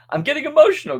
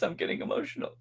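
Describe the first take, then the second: First: High, louder mock-emotional squeak; mock choked up. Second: Mock choked up. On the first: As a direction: pretend to be overcome with emotion. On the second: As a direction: voice giving out, high and faint.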